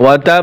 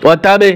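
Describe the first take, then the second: First: The final b is held and pressed firmly. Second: The final b is released with an echoing bounce. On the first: The speaker calls it right. "একটু ধরে বসতে হবে" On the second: The speaker calls it wrong. "এভাবে কলকলা করা যাবে না"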